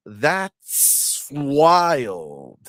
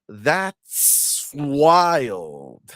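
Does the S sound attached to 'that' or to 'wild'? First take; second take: wild; wild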